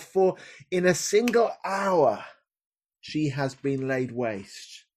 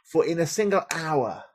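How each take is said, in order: First: Slow, falling mourn; grieving lament. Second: Said in the usual way. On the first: Acted. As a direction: let the grief fade out slowly. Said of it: "crying aloud".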